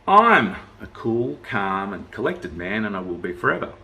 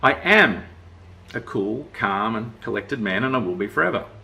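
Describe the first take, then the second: First: The stress is on "I". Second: The stress is on "am".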